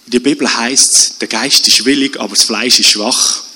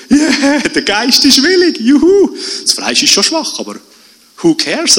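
First: „Fleisch“ und „schwach“ betont, Satz sinkt am Ende nach unten; Betonung auf Fleisch schwach. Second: „willig“ jubelnd hoch und laut betont, „juhu“ ausgelassen; jubelnd, Betonung auf willig. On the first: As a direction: den Ton auf „Fleisch ist schwach“ legen, resigniert. (Betonung auf „Fleisch ist schwach“, Stimme fällt ab) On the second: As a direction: den Geist feiern, das Fleisch wegwischen. (begeistert jubelnd, Ton auf „willig“) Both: Shown as a demonstration. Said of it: "in der falschen, ähm, Betonung".

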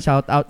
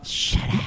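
First: Said in the usual way. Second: Breathy whisper, just air; whispered echo. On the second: Pretend. Co-host whispers the shout out back as a joke.

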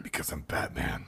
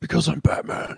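First: Low gravelly Batman whisper. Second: Batman voice. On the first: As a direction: growl it like Batman. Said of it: "Batman quote, lower". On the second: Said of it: "Batman quote". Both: Retold or imitated.

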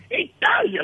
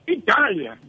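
First: Italia, scoffed much higher; scornful repeat. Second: Said in the usual way. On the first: Acted. Barber scoffing at the client's trip, high and scornful. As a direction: sneer the word Italia, pitched high.

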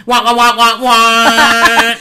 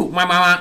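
First: High, loud trombone-like wah wahs; like a muffled cartoon grown-up; muffled wah wah talk. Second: Said in the usual way. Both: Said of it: "I'll do what Andrea always says".

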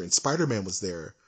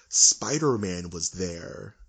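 First: Said in the usual way. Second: Spider-Man was there, drawn out word by word; slow emphatic repeat. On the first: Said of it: "I'm gonna say that again". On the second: Shown as a demonstration. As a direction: spell it out slowly for the cheap seats. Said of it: "I'm gonna say that again for those in the cheap seats".

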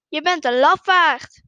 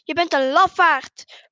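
First: Loud answering call; echoed insult. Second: Loud, slow accusation; mildly angry shout. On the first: Mountain voice answers the boy, loud echoed insult. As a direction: throw the accusation back, loudly. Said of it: "Waarop de stem antwoordt". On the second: Boy insults the voice, mildly angry slow shout. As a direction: call it out with a touch of anger. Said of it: "Hij wordt kwaad en roept". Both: A narrator's reading.

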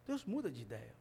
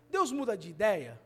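First: Deus muda de ideia. said low and soft; quiet answer. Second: Deus muda de ideia? asked with rising doubt; questioning tune. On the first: Preacher answering his own question, low and soft. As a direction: answer it softly. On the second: Preacher asking the church, questioning tune. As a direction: pose it as a question. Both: Shown as a demonstration.

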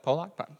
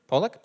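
First: "Pollock" with an open second vowel, like POH-lock; alternative pronunciation. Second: "Pollock" with a short, weak second vowel, like POH-luck; trying a pronunciation. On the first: Preacher second-guessing painter's name, tentatively trying "Pollock" as POH-lock. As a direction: say "Pollock" questioningly, ending in -lock. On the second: Preacher unsure of painter's name, tentatively trying "Pollock" as POH-luck. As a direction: say "Pollock" questioningly, ending in -luck. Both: Shown as a demonstration. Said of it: "However that's pronounced".

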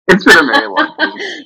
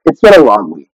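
First: High laughing voice on "very long week"; laughing admission. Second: Said in the usual way. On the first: Real, not acted. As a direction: repeat it through real laughter, leaning on "very". Repeats it laughing, emphasizing very.

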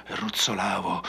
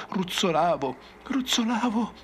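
First: Said in the usual way. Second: Climbing higher with each repeat, frantic; rising panic. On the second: Acted. Survivor relives his tumble to the ranger, pitch climbing in panic. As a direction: spiral up into terror. Crazed survivor recounts falling.

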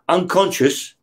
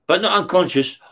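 First: Said in the usual way. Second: Not pushed up in pitch to correct himself; stress on not. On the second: Retold or imitated. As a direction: hit the word not, then let unconscious fall.

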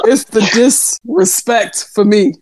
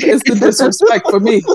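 First: Slow, drawn-out mock offence; deliberate emphasis. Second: Said through a laugh; amused offence. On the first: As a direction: space the words out for comic effect. Repeats line for comic emphasis. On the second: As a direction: laugh while feigning offence. Laughing at teasing, first take. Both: Real, not acted.

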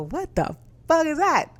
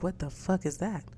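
First: Losing it over a cousin's mortgage figure; shocked outburst. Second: Hushed first reaction to a three thousand dollar mortgage; stunned and muted. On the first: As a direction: let the disbelief explode. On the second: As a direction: say it under your breath, stunned. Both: Retold or imitated. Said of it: "I was losing it for a moment there".

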